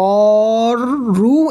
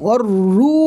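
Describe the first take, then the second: First: The vowel is stretched out long. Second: The vowel is kept short and quick. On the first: The speaker calls it wrong. "এখানে কোনো টান হবে না, মানে অর রু এমন কোনো হবে না" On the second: The speaker calls it right. "বরং অর রু হু"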